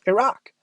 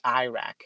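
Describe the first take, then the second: First: The word is said in the local way. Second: The word is said in an Americanized way. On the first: The speaker calls it right. "It's pronounced Iraq" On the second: The speaker calls it wrong. "President Bush used to say Iraq"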